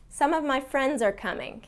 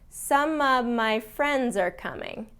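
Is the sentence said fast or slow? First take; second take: fast; slow. First: The sentence is said quickly at natural speed. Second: The sentence is said slowly and carefully. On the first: "That's more in the, the speed that a native speaker would say" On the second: "I'm going to say it slower"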